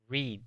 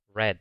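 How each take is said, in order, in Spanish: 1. La vocal es un sonido ee largo. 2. La vocal es un sonido eh corto. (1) "en su forma básica, leer se dice read, como una I" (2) "en el pasado se pronuncia red, como el color rojo"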